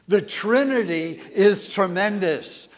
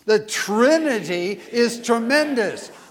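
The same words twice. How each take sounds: First: It is said calmly. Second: It is said forcefully.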